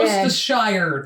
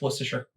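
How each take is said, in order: First: The ending is a full 'shire' sound. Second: The ending is a reduced 'sher' sound. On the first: The speaker calls it wrong. "I know it's not" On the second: The speaker calls it right. "It's Worcestershire"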